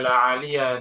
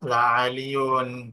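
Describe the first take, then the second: First: The noun ends with a short -a sound. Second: The noun ends with an -un sound. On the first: The noun is treated as indefinite. The speaker calls it wrong. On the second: The noun is treated as a definite name. The speaker calls it right.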